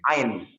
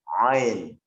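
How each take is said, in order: First: The sound is placed high, toward the nose. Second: The sound is made deep in the throat. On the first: The speaker calls it wrong. "bukan ain" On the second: The speaker calls it right. "tapi ain"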